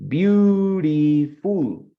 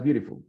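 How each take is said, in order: First: "beautiful" stretched very slowly into three syllables, louder and higher. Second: Said in the usual way. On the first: Shown as a demonstration. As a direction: draw out each syllable of "beautiful" for counting. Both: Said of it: "How many syllables has beautiful?".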